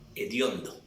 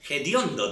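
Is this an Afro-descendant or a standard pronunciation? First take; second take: standard; Afro-descendant. First: It is said in a standard accent. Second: It is said in an Afro-descendant regional accent. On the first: The speaker calls it right. "sino hediondo" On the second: The speaker calls it wrong. "dicen ellos... es un término afrodescendiente"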